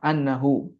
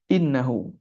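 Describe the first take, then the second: First: The first vowel is an open 'a' sound. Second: The first vowel is a front 'i' sound. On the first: It gives the reason for what came before. "dibaca fathah annahu" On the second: It starts a new clause that gives the reason. "yang kita baca innahu"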